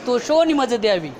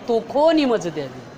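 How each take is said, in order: First: The first word is said with an 'sh' sound. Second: The first word is said with a 'kh' sound. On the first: This is how it is said today. "पसायदानामध्ये काय म्हणतो तुम्ही?" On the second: This is how it was said in the twelfth century. "बाराव्या शतकातली भाषा"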